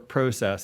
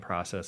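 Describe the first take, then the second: First: It is said with a Canadian pronunciation. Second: It is said with a plain American pronunciation.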